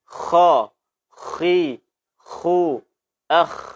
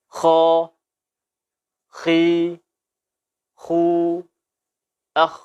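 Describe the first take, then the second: First: The kha sounds rough and snore-like in the throat. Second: The kha sounds clean and flows smoothly. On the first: The speaker calls it wrong. "Tidak boleh kita baca seperti ini" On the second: The speaker calls it right. "Kita baca seperti ini"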